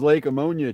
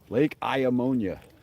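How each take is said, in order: First: The name begins with an 'ah' sound. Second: The name begins with an 'eye' sound. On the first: This is the common everyday way of saying it. "everybody says ammonia" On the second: This is the official way of saying it. "It's just too hard to say Iamonia"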